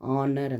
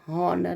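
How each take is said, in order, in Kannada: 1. ಈ ಪದ ಸ್ವರ ಶಬ್ದದಿಂದ ಶುರುವಾಗುತ್ತದೆ. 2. ಈ ಪದ h ಶಬ್ದದಿಂದ ಶುರುವಾಗುತ್ತದೆ. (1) "ಆನರ್ ಅಂತ ಹೇಳಬೇಕು" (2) "ಹಾನರ್ ಅಂತ ಹೇಳ್ಬಾರ್ದು"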